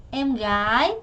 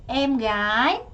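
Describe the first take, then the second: No difference in how they are said.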